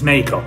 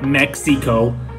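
First: The x is said as a soft h-like sound. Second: The x is said as a ks sound. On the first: The speaker calls it right. "it is Mexico" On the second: The speaker calls it wrong. "not Mexico"

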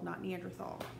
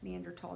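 First: The middle consonant is a th sound. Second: The middle consonant is a plain t sound. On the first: The speaker calls it wrong. "Do not pronounce it that way" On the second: The speaker calls it right. "It's still pronounced the same way each time"

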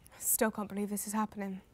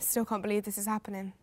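First: It is said slowly and hesitantly. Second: It is said quickly without hesitation.

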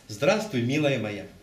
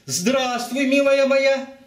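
First: The greeting is said in a warm, friendly tone. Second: The greeting is said in an indignant, reproachful tone. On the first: The speaker is glad to see her. "Положительные слова" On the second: The speaker is angry she let him down. "но я с возмущением всегда говорю"

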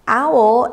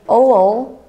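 First: The word is pronounced in the standard way. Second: The word is pronounced in a distorted, nonstandard way. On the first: This is the word as written. The speaker calls it right. "If the word is owl" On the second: This is a misreading of the word. The speaker calls it wrong. "they did not pronounce the word correctly"

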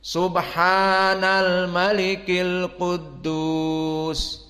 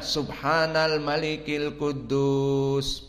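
First: It is highest, longest and in a deep voice. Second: It is fairly short and not very loud. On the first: "ketiga ditinggikan dan amplitudonya diperpanjang dan suaranya diperbesar" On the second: "yang awal tidak begitu panjang dan tidak begitu keras"

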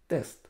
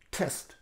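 First: The first t has no puff of air. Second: The first t has a strong puff of air. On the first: "Берем русское слово. ... листочек бумаги остается на месте" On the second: "листочек колеблется каждый раз, когда я произношу первое «т». Это и есть придыхание"

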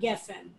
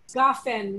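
First: The first vowel is an 'e' sound. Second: The first vowel is an 'a' sound. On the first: The speaker calls it wrong. "not gefen" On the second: The speaker calls it right. "Gafen, not gefen"

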